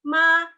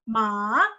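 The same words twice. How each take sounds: First: The pitch stays high and level. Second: The pitch dips low then rises. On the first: It means mother. "tone satu itu artinya ibu" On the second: It means horse. "Dan tone tiga, ma, artinya kuda"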